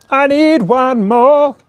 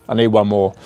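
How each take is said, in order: First: High, slow drawn-out chant of "I need one more"; slow sung. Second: Said in the usual way. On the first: Acted.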